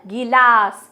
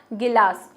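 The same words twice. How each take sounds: First: गिलास with a long drawn-out गी; exaggerated wrong pronunciation. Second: गिलास said naturally with a short गि; natural pronunciation. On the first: Teacher mocks the overlong गी in गिलास. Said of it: "गिलास नहीं बोल रहे हो ना". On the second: Teacher tells students to listen to her natural गिलास. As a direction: say गिलास with a light short गि, the way it is really spoken. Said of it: "आप साउंड कैसे बोल रहे हो". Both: Shown as a demonstration.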